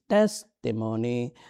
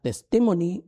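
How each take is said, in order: First: The stress is on the first syllable. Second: The stress is on a later syllable. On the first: The speaker calls it right. "The emphasis is in the first syllable" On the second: The speaker calls it wrong. "Not testimony"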